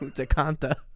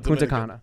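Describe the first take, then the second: First: The second word has an added t sound. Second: The second word has no t sound. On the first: The speaker calls it wrong. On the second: The speaker calls it right.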